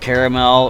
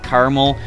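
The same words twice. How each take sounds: First: The word has three syllables, middle vowel pronounced. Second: The word has two syllables, middle vowel dropped.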